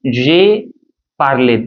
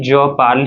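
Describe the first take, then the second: First: "j'ai parlé" as "jay par-lay"; past tense pronunciation. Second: "je parle" ending on the L; present tense pronunciation. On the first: Teacher showing the phonetic difference, sounded é in "parlé". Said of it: "this phonetical separation you can say". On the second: Teacher showing the phonetic difference, "parle" as one syllable. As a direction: say "je parle" with no vowel after the L. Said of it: "We are saying only je parle here". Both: Shown as a demonstration.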